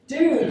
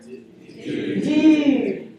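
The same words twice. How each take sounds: First: Said in the usual way. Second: Dude. with the oo pushed far forward; surfer dude. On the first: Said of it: "Everybody say the word". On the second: Shown as a demonstration. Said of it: "say it like you're a surfer".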